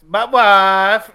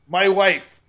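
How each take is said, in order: First: It is said in a Borat impression. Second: It is said in a normal voice.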